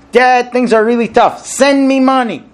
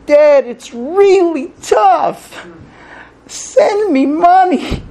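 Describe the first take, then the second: First: Demanding read. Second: Pleading read. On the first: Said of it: "So one neighbor reads it this way". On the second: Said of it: "and one neighbor reads it that way". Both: Retold or imitated.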